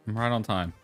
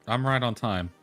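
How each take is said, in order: Both takes have the same delivery.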